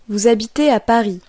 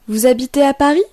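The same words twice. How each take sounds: First: It has the intonation of a statement. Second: It has the intonation of a question.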